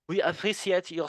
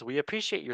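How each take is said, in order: First: It is said in a put-on French accent. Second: It is said in the speaker's normal accent.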